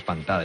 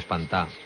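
First: The ending is said in full as -ada. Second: The ending is shortened to -á without d. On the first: This is the standard, formal form. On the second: This is the colloquial, popular form.

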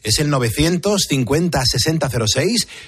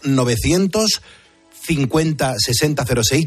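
First: The number is said at normal speed. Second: The number is said slowly.

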